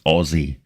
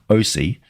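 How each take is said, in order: First: It is said like the word Aussie. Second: It is said as two letters, oh-see. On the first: The speaker calls it right. "it's Aussie" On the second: The speaker calls it wrong. "It's not O C"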